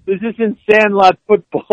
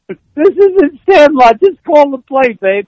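First: Half-hearted mock yell. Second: Loud, high, slow yell. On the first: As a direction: toss off "Sandlot" with a mild push. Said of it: "Herman yells over them". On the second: Retold or imitated. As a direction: bellow it across the huddle, drawn out. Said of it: "he yells".

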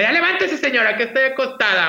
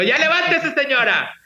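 First: High, bossy call to get up; teasing wake-up call. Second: High, bossy mock wake-up shout; playful wake-up call. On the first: Retold or imitated. Granddaughter rousing grandma in the morning, high teasing call. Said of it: "en la mañana le decía". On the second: Host teasing listeners with grandma's wake-up call, high. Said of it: "siempre les digo".

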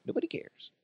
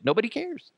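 First: Breathy whispered repeat. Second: High sarcastic jab; mocking. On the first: Acted. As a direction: whisper it like an aside. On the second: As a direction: sneer it with a rising pitch. Mocking repeat, pitched up.

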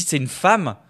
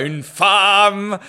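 First: Said in the usual way. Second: Grandly proclaimed, very drawn out and higher; hammed-up awe, holding the word "femme"; mock reverence. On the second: (déclamation pompeuse, « femme » longuement étiré) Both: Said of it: "ça la sacralise magnifiquement".

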